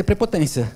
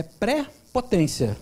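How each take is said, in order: First: Said in the usual way. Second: "pré-potência" slowly, with a clear break after "pré"; word split in two. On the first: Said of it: "É pré-potência". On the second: Shown as a demonstration. Lecturer breaking down the word for the audience, "pré-potência" split slowly. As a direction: pause between "pré" and "potência". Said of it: "O que que é prepotência?".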